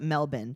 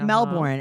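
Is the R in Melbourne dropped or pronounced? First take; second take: dropped; pronounced. First: The R sound in the word is dropped. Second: The R sound in the word is pronounced.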